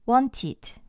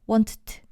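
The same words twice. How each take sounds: First: A short vowel comes between t and d. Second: The d follows t with no vowel between. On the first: The speaker calls it right. "모음을 하나 추가해줘서" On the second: The speaker calls it wrong. "이렇게 발음하기가 어려우니까"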